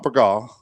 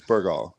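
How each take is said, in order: First: Burgaw with a weak first syllable, ber-GAW; wrong local pronunciation. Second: Burgaw with a full first syllable, BUR-gaw, lower; correct local pronunciation. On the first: Host shows newcomers the wrong way, Burgaw as ber-GAW. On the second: Host corrects it for listeners, Burgaw as low BUR-gaw. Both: Shown as a demonstration. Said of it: "is not Burgaw".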